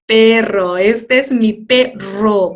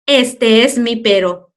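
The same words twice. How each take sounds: First: "perro" slow with a firmly rolled RR; correct strong R. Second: "perro" mispronounced with a single tap, as pero, loud and slow; wrong soft R. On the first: Teacher correcting the weird version, strong trilled R. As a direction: hit and roll the double R in "perro". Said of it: "va a sonar fuerte". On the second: Teacher jokingly showing a too-weird version, soft R. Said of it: "demasiado raro". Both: Shown as a demonstration.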